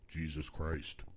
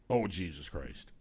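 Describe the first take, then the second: First: It is said plainly in a deep voice. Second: It is said as an exasperated exclamation. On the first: "I have a baritone voice" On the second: "because I say it like"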